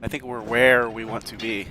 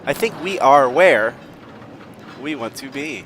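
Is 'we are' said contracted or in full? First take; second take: contracted; full. First: 'We are' is contracted and run together. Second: 'We are' is said as two full words. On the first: The speaker calls it wrong. "Instead of saying, I think we're where" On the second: The speaker calls it right. "I'm going to try not to mumble"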